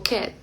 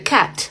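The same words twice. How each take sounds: First: "cat" with the final T stopped and unreleased; held T. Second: "cat" with a hard, released T; strong final T. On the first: Teacher showing the American ending, held T. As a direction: cut "cat" softly before the T pops. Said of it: "como totalmente detenida". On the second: Teacher imitating Spanish speakers' English, strong final T. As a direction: explode the T at the end of "cat". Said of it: "La pronunciamos fuerte". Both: Shown as a demonstration.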